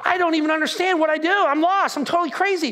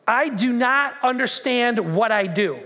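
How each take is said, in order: First: High, hurried exasperation; acted frantic confusion. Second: Slow, word-by-word reading; deliberate scripture reading. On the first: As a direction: play Paul at his wits' end, pitched up. Frantic paraphrase of confused Paul. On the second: Acted. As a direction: weigh each word of the verse. Measured reading of Paul's words.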